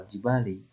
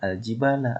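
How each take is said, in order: First: The word ends with the vowel i. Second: The word ends with the vowel a. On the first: "atau al-jibali" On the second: "jangan dibaca al-jibala"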